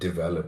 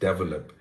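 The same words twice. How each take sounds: First: The word is pronounced the standard way. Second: The word is pronounced the Indian way.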